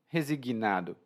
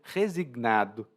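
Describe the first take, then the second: First: An extra i sound follows the g. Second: No extra vowel sound follows the g. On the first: This is how it is said in Brazil. "Eu falo resigui, resignado" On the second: This is how people in Portugal say it. "Algumas pessoas em outros países vão dizer resignado, especialmente os portugueses"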